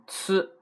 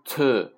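First: 呲 as tsu with flat lips; a ts sound on 呲 with an unrounded vowel; correct Japanese tsu. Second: 呲 said as a mistaken version of tsu; wrong tsu. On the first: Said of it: "读成呲". (“呲”读成日语tsu，扁嘴) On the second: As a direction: miss the tsu vowel on 呲, drawing it out. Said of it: "都不对啊". (“呲”故意读错，拉长示范) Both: Shown as a demonstration.

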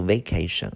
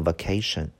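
First: "vacation" with first syllable VAY, as vay-KAY-shun; full long "ay" opening "vacation"; alternative pronunciation. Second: Said in the usual way. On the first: Shown as a demonstration. Teacher separating it from vocation, "vacation" said vay-KAY-shun. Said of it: "那个单词也可以读vacation啊，为了和这个区别开". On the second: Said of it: "那个单词也可以读vacation啊".

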